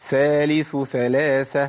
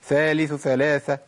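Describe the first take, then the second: First: Both th sounds are clearly separated. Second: The th sounds are rushed together quickly. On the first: The speaker calls it right. "أبين الثائين" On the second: The speaker calls it wrong. "كده أنا بجري يا شيخ"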